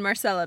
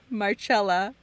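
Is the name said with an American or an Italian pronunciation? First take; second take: American; Italian. First: The name has an American pronunciation. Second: The name has an Italian pronunciation. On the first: The speaker calls it wrong. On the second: The speaker calls it right.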